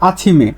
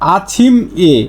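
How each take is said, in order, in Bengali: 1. শেষ ব্যঞ্জনবর্ণটি পরের অক্ষরের সাথে যুক্ত হয়ে যায়। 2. শেষ ব্যঞ্জনবর্ণটি স্বরধ্বনির আগে আলাদাভাবে উচ্চারিত হয়। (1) "আপনি বলতে হবে আছিমে" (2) "আছিম এ না বলে"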